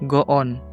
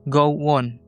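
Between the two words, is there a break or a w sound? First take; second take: break; w sound. First: The two words are separated without a glide. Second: A w-like glide joins the two words.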